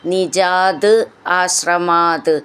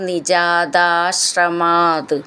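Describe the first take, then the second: First: The two words are said separately. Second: The two words are joined into one.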